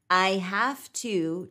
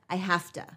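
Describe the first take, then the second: First: The words are said fully and separately. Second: The words are shortened and run together. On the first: "I have to turns into" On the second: "turns into I have to"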